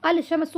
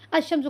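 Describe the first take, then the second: First: "अल शमसु" with an audible 'l' before 'sh'; lam sounded. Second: "अशमसु" as ash-shamsu, no 'l' heard; lam silent. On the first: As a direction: pronounce a full 'al', then "शमसु". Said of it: "लेकिन अल नहीं कह सकते". ("अल शमसु" में लाम साफ़ बोलकर) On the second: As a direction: glide from 'a' straight into the doubled 'sh' of "अशमसु". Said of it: "शीन जो है हरूफ शमसी में से है". ("अशमसु" में लाम चुप रखकर) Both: Shown as a demonstration.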